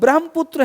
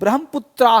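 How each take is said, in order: First: The word ends on the consonant cluster tr. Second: The word ends with a final a vowel. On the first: This is the Hindi form. "Hindi में" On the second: This is the English form. "अंग्रेजी में"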